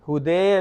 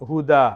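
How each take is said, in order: First: The word ends in an 'e' sound. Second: The word ends in an open 'a' sound. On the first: The speaker calls it wrong. "ഹുദേ അല്ല" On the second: The speaker calls it right. "ഒരു അലിഫിന്റെ അളവ് നിട്ടണം"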